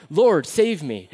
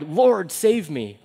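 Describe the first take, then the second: First: Said in the usual way. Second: Drowning cry. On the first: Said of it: "I couldn't do an impression with lungs full of water". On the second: Retold or imitated. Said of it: "with lungs full of water, he cried".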